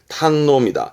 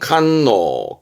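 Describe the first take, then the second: First: The word begins with a T sound. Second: The word begins with a K sound. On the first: "조심할 건 발음이 탄노로 가요" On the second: "그래서 발음은 칸노"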